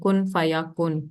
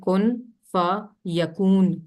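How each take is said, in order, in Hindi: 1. आखिरी शब्द छोटे, तुकबंदी वाले 'kun' पर खत्म होता है। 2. आखिरी शब्द लंबी 'koon' आवाज़ पर खत्म होता है। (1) "गलत तलफ़ुज़ इसका करते हैं" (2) "जो पहला कुन है वो सेकंड कुन से राइम नहीं कर रहा"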